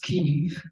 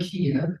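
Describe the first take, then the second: First: The name is said the Ukrainian way. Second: The name is said the Russian way. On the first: This is the current, Ukrainian form of the name. "which is the Ukrainian pronunciation" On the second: This is the older, Russian form of the name. "that's the Russian pronunciation"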